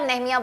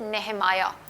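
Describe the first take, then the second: First: The name is said the Urdu way. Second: The name is said the English way. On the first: "Urdu में आप नेहमिया बोलते हैं" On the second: "English में you pronounce it नेहमाया"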